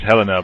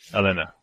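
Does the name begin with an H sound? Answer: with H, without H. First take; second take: with H; without H. First: The name begins with an audible H sound. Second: The name begins with a vowel, no H sound. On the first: The speaker calls it wrong. "Everyone says Helena" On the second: The speaker calls it right. "the H is silent"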